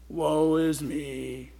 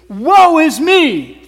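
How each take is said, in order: First: It is said mopey, like Eeyore. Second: It is said solemn, like a prophet.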